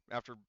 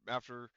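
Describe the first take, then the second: No difference in how they are said.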